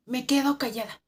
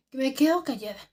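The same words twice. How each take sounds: The two takes are said the same way.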